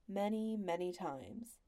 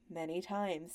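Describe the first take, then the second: First: Slow, weary repetition; husband's slow weary aside to his wife; weary emphasis. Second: Said in the usual way. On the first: A narrator's reading. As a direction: drag it out, long-suffering. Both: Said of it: "husband's weary reply".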